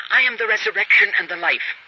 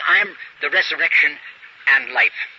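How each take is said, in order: First: Said in the usual way. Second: Scripture reading with the article gone; without the "the". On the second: Shown as a demonstration. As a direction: drop "the" and read "I am the resurrection and life" deliberately. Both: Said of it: "takes away the "the".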